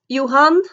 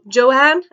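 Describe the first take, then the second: First: The name is pronounced the Norwegian way. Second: The name is pronounced the English way. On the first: This is how the speaker says it herself. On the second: This is how the book says it.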